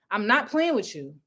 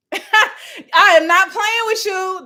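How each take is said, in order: First: Said in the usual way. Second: Slow, loud, laughing repeat of the warning; laughing, slowed emphasis. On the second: Shown as a demonstration. Repeating her warning to viewers, slow and laughing. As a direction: drag it out through a laugh.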